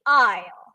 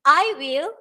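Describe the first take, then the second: First: The words merge into one short syllable. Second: Both words are said fully and separately. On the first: "using contractions" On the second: "the phrase of I will"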